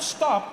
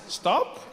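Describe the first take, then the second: First: It is said as a firm command. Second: It is said as a casual suggestion.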